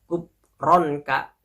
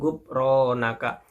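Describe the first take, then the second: First: The vowel after the r is kept short. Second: The vowel after the r is held long. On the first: The nun carries a sukun. "Apabila ini huruf nunnya disukunkan, jadi singkat membaca" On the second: The nun carries a vowel, not a sukun. "ro-nya harus dibaca panjang"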